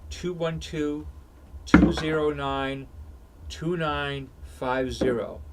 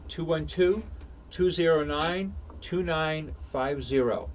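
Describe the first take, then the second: First: The number is read slowly and deliberately. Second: The number is read at normal speed.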